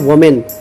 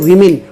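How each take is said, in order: First: The first vowel sounds like 'o'. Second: The first vowel sounds like 'i'. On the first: The speaker calls it wrong. "गलत है वोमेन" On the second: The speaker calls it right. "सही है वीमेन"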